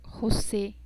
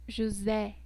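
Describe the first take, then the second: First: The E vowel is said closed. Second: The E vowel is said open. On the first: This is the Spanish way. "nosotros decimos en el español José" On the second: This is the Portuguese way. "en el portugués decimos José, E, como que intentamos abrir la garganta"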